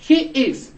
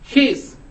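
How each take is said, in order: First: Both words are said fully and separately. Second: The two words merge into one syllable.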